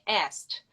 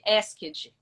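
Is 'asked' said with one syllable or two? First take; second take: one; two. First: The word is said as one syllable. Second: The ending is said as an extra syllable. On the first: The speaker calls it right. "A pronúncia correta de asked" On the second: The speaker calls it wrong. "Se o aluno vai ler isso daí com a referência fonética que nós temos na língua portuguesa"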